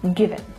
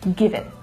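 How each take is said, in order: First: The two words run together smoothly. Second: The same.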